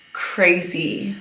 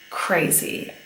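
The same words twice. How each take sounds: First: Said in the usual way. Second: "crazy" breathed softly for emphasis; stressed, hushed. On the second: Shown as a demonstration. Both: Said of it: "was actually crazy".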